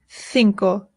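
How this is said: It is said with a Spain accent. "In Spain, they say cinco"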